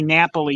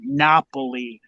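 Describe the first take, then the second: First: The a vowel sounds like a flat a. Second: The a vowel sounds like an open ah. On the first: The speaker calls it wrong. "you don't say Napoli ... You don't say a" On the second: The speaker calls it right. "you say Napoli ... you say ah"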